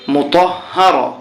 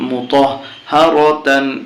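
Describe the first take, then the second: First: The word ends short, without the -tan ending. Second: The word ends with the full -tan ending. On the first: The reciter stops at this word. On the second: The recitation continues without stopping.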